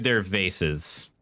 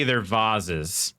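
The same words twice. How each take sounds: First: Vases said as VAY-siz; standard pronunciation. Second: Vases said as VAHZ-iz; fancy pronunciation. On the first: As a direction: say vases with a long "ay" and an s. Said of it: "If they're standard, they're vases". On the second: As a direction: say vases with a broad "ah" and a z. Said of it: "if they're fancy, they're vases". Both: Shown as a demonstration.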